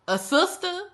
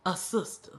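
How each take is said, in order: First: Pitched way up in disbelief; can't believe the word; a sister, asked high and stunned; incredulous echo. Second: Letting it sink in quietly; a sister, said softly and flat; flat stunned repeat. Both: Real, not acted.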